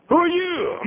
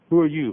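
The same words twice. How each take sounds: First: Very high-pitched, sustained challenge; insistent questioning. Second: Said in the usual way. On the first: Acted. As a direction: demand it again, far up in pitch. Same question repeated in escalated form.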